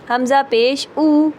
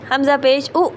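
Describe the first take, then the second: First: The final vowel is short and smooth. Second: The final vowel is clipped with a jerk. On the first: The speaker calls it right. "Normal तरीके से" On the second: The speaker calls it wrong. "ये झटका"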